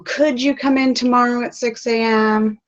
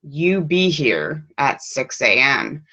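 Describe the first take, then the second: First: High, asking lilt; a boss politely asking, rising question. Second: Slow, flat, firm order with no rise; a mild stern boss voice, falling tone; bossy command. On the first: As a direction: ask it gently like a request. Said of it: "doesn't say". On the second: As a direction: lay it down like a boss giving a rule. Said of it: "The boss says". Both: Shown as a demonstration.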